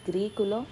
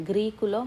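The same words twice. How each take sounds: The two takes are said the same way.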